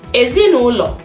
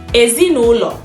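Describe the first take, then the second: The two takes are said the same way.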